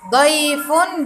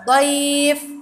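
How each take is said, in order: First: The word ends with a final 'un' sound. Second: The word stops short without the final ending.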